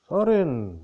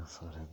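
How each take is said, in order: First: Loud call. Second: Sorin said low and much softer; soft low murmur. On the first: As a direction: call the name out high and loud. Calling out the name Sorin. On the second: Repeats the name softly. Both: Acted.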